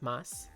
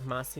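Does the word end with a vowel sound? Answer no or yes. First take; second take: no; yes. First: The word ends on the s sound, no vowel. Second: The word ends with a clear u vowel. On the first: "is actually just pronounced mas" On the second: "M A S U"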